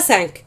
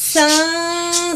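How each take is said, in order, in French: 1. La consonne finale est clairement prononcée. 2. La consonne finale n'est pas prononcée. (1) "On ne dit pas cinq" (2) "la dernière lettre ne se prononce pas lorsqu'elle est suivie d'un nom qui commence par une consonne"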